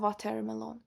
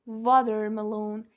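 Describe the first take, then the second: First: It is said with a less native-like accent. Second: It is said with a more native-like accent. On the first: The speaker calls it wrong. "نه watermelon" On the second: The speaker calls it right.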